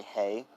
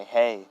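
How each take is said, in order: First: "Hey" said softer, as a tentative question. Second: Said in the usual way. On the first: A narrator's reading. Aizawa answering Deku's hay joke, "Hey" said questioningly. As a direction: say "Hey" lightly, as if unsure. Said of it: "like, kinda questioning it".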